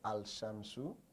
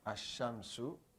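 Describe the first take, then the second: First: The article's L is clearly heard before sh. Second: The article's L merges into the following sh.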